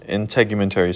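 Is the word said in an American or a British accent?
American. It is said in the speaker's ordinary accent.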